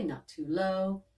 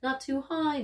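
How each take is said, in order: First: "not too low" dropped to a lower pitch, slow. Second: "not too high" lifted higher in pitch. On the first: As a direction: sink "low" down slowly. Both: Shown as a demonstration. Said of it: "an easy pitch".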